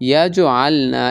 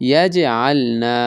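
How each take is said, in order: The two takes are said the same way.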